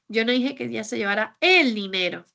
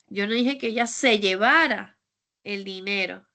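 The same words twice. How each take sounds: First: The word "dinero" carries the main stress. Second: The word "llevara" carries the main stress. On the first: She may have taken something else. "Es que tal vez se llevó otra cosa" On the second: She may have done something else with it. "Es que tal vez se lo gastó o hizo otra cosa"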